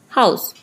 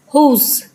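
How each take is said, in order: First: The word is said with the modern vowel. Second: The word is said with an older vowel. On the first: This is the Modern English pronunciation. "now it's house" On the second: This is the older Middle English pronunciation. "first it was whose"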